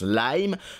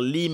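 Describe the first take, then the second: First: The vowel is an English 'eye' sound. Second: The vowel is a short French 'ee' sound. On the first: The speaker calls it right. "le nom de cette entreprise se prononce Lime" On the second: The speaker calls it wrong. "on va dire Lim"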